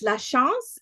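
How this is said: The name is said with a French pronunciation. "If it's French"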